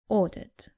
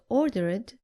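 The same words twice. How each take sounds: First: The ending adds no extra syllable. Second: The ending is an extra 'id' syllable. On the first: The speaker calls it right. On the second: The speaker calls it wrong.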